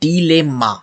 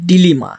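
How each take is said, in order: First: The second vowel sounds like 'e' in 'let'. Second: The second vowel sounds like 'ee' in 'see'. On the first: The speaker calls it right. "সঠিক উচ্চারণ হবে এইটা" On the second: The speaker calls it wrong. "Not ডিলেমা বা ডিলিমা, এটা হবে না কিন্তু"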